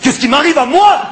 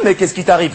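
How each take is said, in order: First: It is said in an angrier tone. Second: It is said in a calmer tone.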